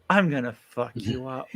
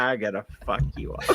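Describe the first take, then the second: First: Quiet, smiling threat; smiling menace. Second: Quiet, evil smiling threat; evil whisper-threat. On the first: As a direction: say it sweetly but menacing. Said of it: "if you wanna smile when you say it, you go". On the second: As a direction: grin and promise violence softly. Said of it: "just act evil about it". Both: Shown as a demonstration.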